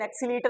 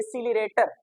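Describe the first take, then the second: First: It sounds like 'excelitor', with syllables jumbled. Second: It sounds like 'accelerator', with all syllables present. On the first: The speaker calls it wrong. "लेकिन एक्सीलीटर नहीं होता" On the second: The speaker calls it right. "वो होता है एसीलरेटर"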